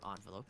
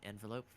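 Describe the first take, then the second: First: "envelope" starting ON, as in "on"; alternative pronunciation. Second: "envelope" starting EN, as in "end"; first pronunciation. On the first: Streamer offering friend the other way to say it, "envelope" said ON-velope. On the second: Streamer guiding friend to the in-game mail, "envelope" said EN-velope. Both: Shown as a demonstration. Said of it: "however you say it".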